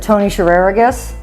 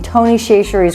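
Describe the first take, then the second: First: The surname sounds like Shereragus. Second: The surname sounds like Chachere's. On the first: "pronounces it Tony Shereragus" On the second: "I'm using Tony Chachere's Creole"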